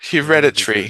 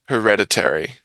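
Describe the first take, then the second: First: It is said with an Australian schwa vowel. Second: It is said with a US pronunciation.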